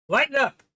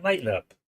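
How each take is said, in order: First: Much higher and louder, a real exasperated call; loud exclaim. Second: Said in the usual way. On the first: Real, not acted. Host exasperated at silent listeners, loud high urging.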